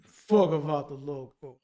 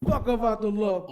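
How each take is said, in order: First: It is said slowed down in a deep voice. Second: It is said in his normal voice.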